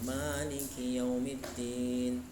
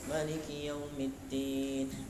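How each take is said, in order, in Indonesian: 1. Vokal pertama pada Maliki dibaca panjang. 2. Vokal pertama pada Maliki dibaca pendek. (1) "dibaca panjang" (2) "baca pendek"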